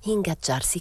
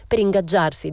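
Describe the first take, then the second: First: Puzzled musing. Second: "Per ingaggiarsi" declared with a hard stress on Per; emphatic claim. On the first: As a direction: mull over "Ingaggiarsi" as an odd word. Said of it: "che vuol dire?". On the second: Young man defends his friend, stressing "Per ingaggiarsi" loudly. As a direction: punch PER in "Per ingaggiarsi", louder and higher. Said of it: "diceva lui". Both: A narrator's reading.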